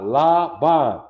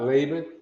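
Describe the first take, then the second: First: The first vowel is an open 'ah' sound. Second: The first vowel is not an 'ah' sound. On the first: The speaker calls it right. "because we get the ah" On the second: The speaker calls it wrong.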